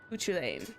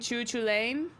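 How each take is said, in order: First: The name begins with a k sound. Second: The name begins with a ch sound. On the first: The speaker calls it right. "There it is" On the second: The speaker calls it wrong. "I always hear C H at the beginning is always like a ch"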